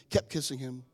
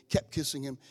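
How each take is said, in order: Both takes have the same delivery.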